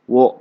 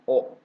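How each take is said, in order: First: It begins with a w sound. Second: It is a bare vowel with no w. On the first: The speaker calls it wrong. "Ini kan wo ya" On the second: The speaker calls it right. "tapi dibacanya o ya. O bukan wo ya dibacanya"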